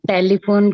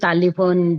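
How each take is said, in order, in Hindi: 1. पहले अक्षर में e स्वर है। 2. पहले अक्षर में लंबा a स्वर है।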